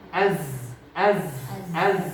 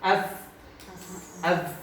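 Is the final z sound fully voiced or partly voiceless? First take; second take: fully voiced; partly voiceless. First: The final z sound stays voiced throughout. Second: The final z sound drifts toward a voiceless s. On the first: The speaker calls it right. "konsisten di jahar dan dokhawat" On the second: The speaker calls it wrong. "kalau dekat ke hamas"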